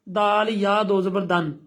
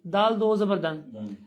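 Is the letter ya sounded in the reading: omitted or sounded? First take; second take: sounded; omitted. First: The letter ya is sounded before the vowel marks. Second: The letter ya is left out entirely. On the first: The speaker calls it wrong. "आप ऐसा नहीं करेंगे" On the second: The speaker calls it right. "नहीं नहीं नहीं नहीं"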